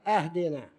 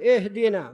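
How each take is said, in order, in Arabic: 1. تبدأ بهمزة قوية ثم 'a'. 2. تبدأ بصوت 'i' خفيف يربط بما قبله. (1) "الهمزة فوق" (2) "اهدنا بهمزة الوصل"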